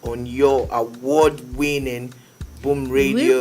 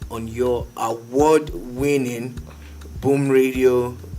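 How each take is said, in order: First: It is said fast. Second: It is said slowly.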